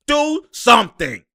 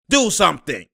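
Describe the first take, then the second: First: Slow, loud and higher, begging; louder pleading. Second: Said in the usual way. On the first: Real, not acted. Fan begging his team on TV, louder and slower. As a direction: drag it out like a desperate plea.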